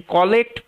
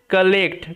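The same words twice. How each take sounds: First: কালেক্ট said with a rounded "kaw" first syllable; mistaken pronunciation demo. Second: কালেক্ট with a short "kuh" first syllable; correct model pronunciation. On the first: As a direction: mispronounce কালেক্ট as KAW-lekt. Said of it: "পড়লে কিন্তু ভুল হয়ে যাবে". (কালেক্ট-কে ভুল করে 'কলেক্ট' বলা) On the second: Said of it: "এটার উচ্চারণটা হচ্ছে কালেক্ট". (কালেক্ট, প্রথমে হালকা 'কা') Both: Shown as a demonstration.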